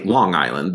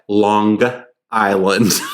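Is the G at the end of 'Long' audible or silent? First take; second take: silent; audible. First: The G in 'Long' is not separately sounded. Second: A hard G is sounded after 'Long'. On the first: "they don't say Long Island" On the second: "There's an emphasis on the G"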